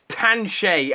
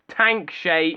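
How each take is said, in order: First: The name has no k sound before sh. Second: The name has a k sound before sh. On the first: The speaker calls it right. "It's Tanshay" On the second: The speaker calls it wrong. "it's not Tankshay"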